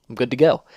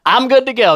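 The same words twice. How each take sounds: First: Said in the usual way. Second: Higher, louder I'm good to go; higher, louder cheerful. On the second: Real, not acted. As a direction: chirp it out happily.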